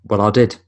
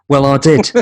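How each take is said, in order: First: Said in the usual way. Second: Louder, higher cocky retort; smug Jay impression. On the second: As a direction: say it like a smug teenager. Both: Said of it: "And he was like".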